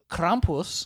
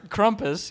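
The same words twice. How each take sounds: First: Drawled Americanized "Krampus" with a broad a; smug yuppie drawl. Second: "Krampus" said with a short uh vowel, "KRUM-pus"; plain everyday "Krampus", first syllable clipped. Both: Shown as a demonstration. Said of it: "I'm gonna say this like a yuppie".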